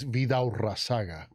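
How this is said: The name is said with a rolled r. The authentic Spanish pronunciation. "the Spanish way is Vida Urazaga. Got to roll that"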